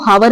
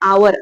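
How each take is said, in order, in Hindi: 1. शब्द की शुरुआत h की ध्वनि से होती है। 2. शब्द की शुरुआत स्वर की ध्वनि से होती है। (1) "हम इसको हावर नहीं पढ़ते" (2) "हम इसको पढ़ते हैं आवर, आ से पढ़ते"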